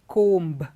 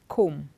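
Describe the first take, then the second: First: A B sound is pronounced after the M. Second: No B sound is pronounced after the M. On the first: The speaker calls it wrong. "we don't say comb" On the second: The speaker calls it right. "the B is silent. It is comb"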